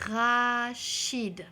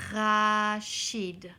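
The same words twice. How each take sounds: First: "Rachid" said slowly and loud, first sound drawn out; teacher modelling a name. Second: Said in the usual way. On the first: Shown as a demonstration. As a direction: stretch out "Rachid" so the first syllable rings. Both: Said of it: "Entends-tu ro au début du mot?".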